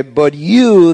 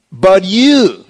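First: "you" leaned on, falling at the end; stress on you. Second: "you" higher and louder, falling at the end; emphatic you. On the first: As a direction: press the word "you" in "But you". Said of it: "that you there in the original language is emphatic". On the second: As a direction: punch "you" to set the listeners apart. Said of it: "are emphatic in the original". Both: Shown as a demonstration.

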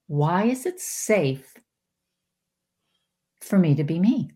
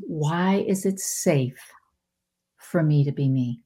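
First: Said in the usual way. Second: Whispered askfirmation. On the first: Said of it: "Think about this". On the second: Shown as a demonstration. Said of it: "I still say it to this day".

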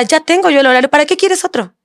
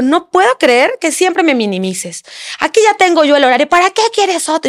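First: High mock outrage, rising to a squeak on quieres; retold angry husband. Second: Mock angry husband. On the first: Wife imitating husband's jealous outburst, high mock outrage. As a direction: mimic his indignant complaint, pitched high. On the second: Wife imitating husband yelling about the schedule, mock indignant. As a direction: replay his accusation, pitched way up. Y empezó a gritar.

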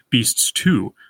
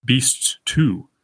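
First: "beasts too" with "too" slightly heavier than "beasts"; stress on too. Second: "Beasts too" with both words weighted heavily; heavy first foot. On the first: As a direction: tip the weight onto "too". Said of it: "the second word receives slightly more". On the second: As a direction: lean hard on "Beasts" and on "too" alike. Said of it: "a very heavy first foot iamb". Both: Shown as a demonstration.

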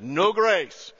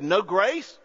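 First: "No grace." stated with a falling tune on "grace"; flat confirmation. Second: "No grace?" asked with a rising tune on "grace"; questioning rise. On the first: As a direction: settle it: "No grace." dropping on "grace". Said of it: "He said". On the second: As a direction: ask "No grace?" in surprise, pitch lifting on "grace". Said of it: "the New Zealand lady said". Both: Retold or imitated.

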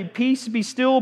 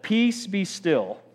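First: "Peace, be still" said higher, ending on a lifted "still"; casual retelling. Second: Slow, soft "Peace, be still" with a falling close; calm command. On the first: Preacher marvelling at Jesus' calm answer, light and lifted. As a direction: toss it off lightly, like it's nothing. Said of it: "you just wake up and say". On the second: Preacher playacting Jesus during the storm, slow and calm. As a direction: hush the storm slowly, a touch quieter. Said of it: "if I just said". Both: Shown as a demonstration.

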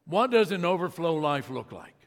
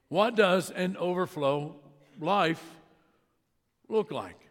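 First: Said in the usual way. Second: "What does an overflow" then a pause, "life", then a pause, "look like?"; deliberate sermon emphasis with pauses before "life" and "look like"; slow and spaced with pauses. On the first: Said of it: "Second question is this". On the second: Shown as a demonstration. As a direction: let "life" and "look like?" land apart, each after a pause.

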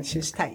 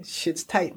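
First: Softer, falling repeat to himself; quiet echo. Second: Said in the usual way. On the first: Real, not acted. Host echoes his own line, softly to himself. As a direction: let it drop away under your breath.

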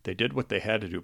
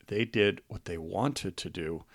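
First: Said in the usual way. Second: Did what they wanted said slowly and deliberately; slower, weighted emphasis. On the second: Real, not acted. Proud husband stressing that the sisters chose to care for their dad, slowly. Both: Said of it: "but more importantly".

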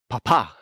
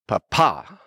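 First: Papa as PA-pa, first syllable strong, falling; papa said PA-pa, stress up front and falling. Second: Papa as pa-PA, first syllable light, rising at the end; papa said pa-PA with a lifted finish; stress on second syllable. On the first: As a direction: lean on the PA of papa. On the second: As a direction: lean on the last syllable of papa. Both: Shown as a demonstration. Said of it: "Different emphasis on the syllables".

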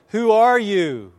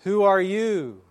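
First: Loud, high, drawn-out question; calling out. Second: High, raised call, slightly less forceful; imitated echo reply. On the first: Retold or imitated. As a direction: shout it slowly across the valley. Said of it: "the boy called out again". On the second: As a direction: play the valley calling back. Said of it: "the reply came back".

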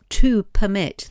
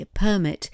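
First: "permit" stressed on the second syllable, per-MIT; "permit" as a verb, second syllable stressed. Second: "permit" stressed on the first syllable, PER-mit; "permit" as a noun, first syllable stressed. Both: Shown as a demonstration. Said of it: "but it is pronounced differently".

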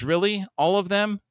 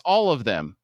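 First: High-pitched doubting question; skeptical challenge. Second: Emphatic falling answer; firm confirmation. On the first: Todd challenged that they're lying, skeptical. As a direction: push back in raised, incredulous pitch. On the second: Answering Todd's doubt about the lying, firm. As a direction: state it firmly, letting the pitch drop. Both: Acted.

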